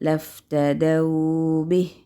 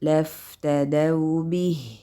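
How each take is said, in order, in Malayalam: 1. 'daw' എന്ന അക്ഷരം മറ്റുള്ളവയേക്കാൾ കൂടുതൽ നീട്ടിയിരിക്കുന്നു. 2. മൂന്ന് അക്ഷരങ്ങളും ഒരേ നീളത്തിലാണ്. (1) "ചില സമയം അത് കൂടിപ്പോവും" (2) "മൂന്നും ഒരേ സമയം"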